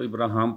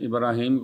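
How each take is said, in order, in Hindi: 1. इस नाम का अंत 'aam' ध्वनि से होता है। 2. इस नाम का अंत 'eem' ध्वनि से होता है।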